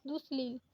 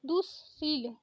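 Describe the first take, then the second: First: दुश्लील said with an l sound after the s; दुश्लील demonstrated as the mistake; wrong version shown. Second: दुशील said cleanly as du-sheel, with no l after the s; दुशील demonstrated as correct; correct version shown. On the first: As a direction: show the wrong form दुश्लील, with the extra l. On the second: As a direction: give the right form दुशील, plain and clear. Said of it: "दुशील होता है". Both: Shown as a demonstration.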